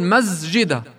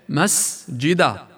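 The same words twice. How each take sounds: First: The s sound is voiced like a z. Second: The s sound is a clear voiceless hiss. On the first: The speaker calls it wrong. "أو يغيرها إلى زاي" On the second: The speaker calls it right. "تأنى عليها، تلفظ سين"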